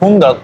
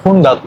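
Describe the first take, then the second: First: The ending is said with an 'a' sound. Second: The same.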